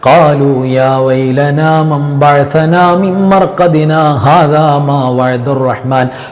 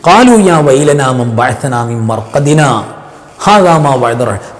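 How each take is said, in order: First: It runs on without any break after marqadina. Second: The sound stops briefly after marqadina, breath held. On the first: The speaker calls it wrong. "ഇങ്ങനെ ചേർത്തി ഓതിപ്പോകും" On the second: The speaker calls it right. "സക്കത്ത എന്ന് പറയുന്ന ഒരു ശബ്ദം മാത്രം നിർത്തി ശ്വാസം നിർത്താതെ"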